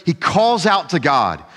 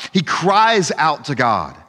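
First: Said in the usual way. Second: Cries leaned on, slow and weighty; stress on cries. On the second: Shown as a demonstration. Preacher stresses cries over calls, slow weighty.

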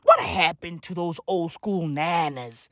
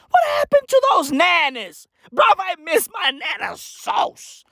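First: Said in the usual way. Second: High, shouted comic complaint; exasperated, high-pitched holler; wailed lament. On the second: Acted. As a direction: cry out for the lost nanas. Comic lament for old nanas.

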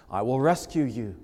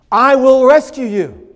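First: I will rescue you, spoken low with a firm weight on "will"; a soft but firm promise that leans on "will"; quiet stress on will. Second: I will rescue you, much louder and higher, with the peak on "rescue"; ringing emphatic promise. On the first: Preacher voicing God's promise quietly to the weary, low and firm. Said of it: "Please notice the emphasis there". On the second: Preacher booming God's promise against self-rescue, loud and high. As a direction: proclaim "rescue" like a trumpet call. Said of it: "He doesn't give them suggestions". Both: Acted.

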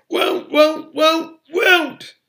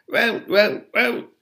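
First: Very high, loud elf scream; risen to a scream. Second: High, repetitive elf croak; continued croaks. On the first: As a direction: screech the word over and over. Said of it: "had risen to a scream". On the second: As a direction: croak the word over and over. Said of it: "Creature's continued croaks". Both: A narrator's reading.

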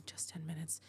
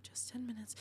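First: Soft unvoiced whisper; whispering to herself in the bathroom, hushed. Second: Softer murmured repeat; murmuring to herself again while waiting. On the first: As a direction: whisper it to calm yourself. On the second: Acted. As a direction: murmur it, nearly silent. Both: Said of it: "she told herself".

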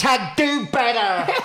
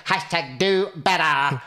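First: Higher, slow, hammed-up preachy slogan; mock slogan. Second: Slow, hammed-up preachy slogan; mock slogan. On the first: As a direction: sneer the hashtag like a scold online. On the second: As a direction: drawl the hashtag like an online scold. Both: Mocking a social media slogan.

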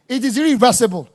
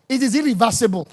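Both takes have the same delivery.

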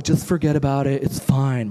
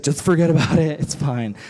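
First: An odd put-on mom voice that misses; mom voice, wrong take. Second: Put-on mild girl voice, punchy first line; best girl voice. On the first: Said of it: "My mom doesn't talk like that". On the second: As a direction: try a girlish mom voice, opening loud. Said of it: "It's the best girl voice I can do right now".

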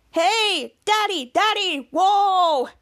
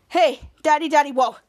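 First: Slow, drawn-out, higher showman delivery; demonstrating a catchphrase. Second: Said in the usual way. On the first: Acted. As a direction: stretch each word out big, sing-song. Schwaz demonstrates the line to say.

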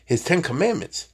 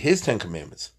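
First: Ten slightly raised and leaned on; stress on Ten. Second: His given the main stress, Ten lighter. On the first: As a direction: lean on the word Ten. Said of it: "I repeat, his Ten Commandments". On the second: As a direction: put the weight on the word his. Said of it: "I repeat". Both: Shown as a demonstration.

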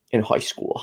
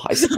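First: Boston accent. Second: "high school" jumped way up in pitch, teasing; high playful echo of "high school"; mock Boston repeat. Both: Shown as a demonstration. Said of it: "I think it's like a Boston accent".

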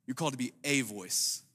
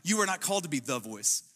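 First: "a" stressed as a full word, lower and softer line. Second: "the" given full weight before "voice"; stress on THE. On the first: Pastor reassuring the congregation they are one of many, stressing "a". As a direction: lean gently on "a", as in one of many. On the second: Pastor relieving the congregation of pressure, stressing "the". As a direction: lean on "the", as in the one and only. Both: Shown as a demonstration. Contrasts the voice with a voice.

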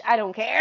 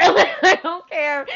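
First: Said in the usual way. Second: Laughing it off. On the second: Real, not acted. Laughs through the repeat.

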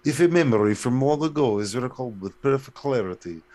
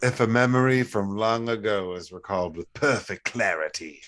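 First: Louder put-on Russian accent. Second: Put-on medieval fantasy British; medieval British accent. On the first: Co-host re-reading the riddle after accent talk, Russian accent. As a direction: recite it like Russian state TV. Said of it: "on Russian T V". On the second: Co-host reading a riddle back, medieval British accent. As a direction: recite it in a storybook British accent. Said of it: "that's some medieval shit".

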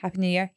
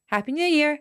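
First: Said in the usual way. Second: High-pitched odd tune over "Happy New Year"; sing-song "Happy New Year" pitched well above normal; Charlie Boyce. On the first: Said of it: "say Happy New Year". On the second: Retold or imitated. Imitating a friend's greeting, high odd intonation on "Happy New Year". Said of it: "Charlie's intonation, the way he says".

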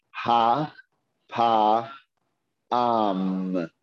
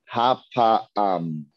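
First: Ha, pa, am with a pause after each syllable; sounded out slowly. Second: Said in the usual way. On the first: Shown as a demonstration. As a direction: spell it out slowly, one syllable at a time. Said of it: "Each letter slowly". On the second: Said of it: "Say that again".

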